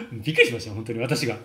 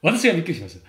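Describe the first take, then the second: First: Fast, laughing "びっくりしました" with the fall on く; laughing amazement. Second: "私が" punched louder, then "びっくりしました" falling; stress on 私が. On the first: Coach recalling a student's change, laughing fast. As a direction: blurt it out quickly through a laugh. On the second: Coach insisting he was the one amazed, stressing "私が". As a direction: lean hard on "私が". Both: Real, not acted.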